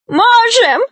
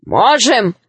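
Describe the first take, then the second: First: Tiny, very high gnome squeak; tearful squeak. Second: Firm reply in an ordinary register; gnome brothers. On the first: Gnome Venya answers Grandfather Frost, tearful high squeak. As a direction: pipe up shrilly through tears. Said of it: "сквозь слёзы пискнул гном Веня". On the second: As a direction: back him up without squeaking. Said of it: "сказали его братья". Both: A narrator's reading.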